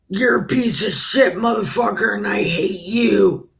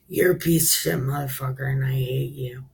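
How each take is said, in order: First: It is said in a harsh, mean tone. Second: It is said in a soft, gentle tone. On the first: The insult is meant to hurt. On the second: The same truth is told without offense.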